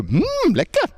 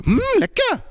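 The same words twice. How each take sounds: First: Delighted lekker. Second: Very high, exaggerated "Mm, lekker"; really-good lekker. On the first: Showing students what to say when eating, exaggerated delight. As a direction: relish "lekker" with exaggerated high-pitched delight. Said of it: "You have to go". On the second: Showing students the response to really good food, over-the-top delight. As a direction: push "lekker" right up into squeaky delight. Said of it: "if it's really good, you do this". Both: Shown as a demonstration.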